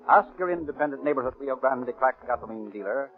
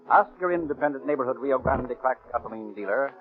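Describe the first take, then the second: No difference in how they are said.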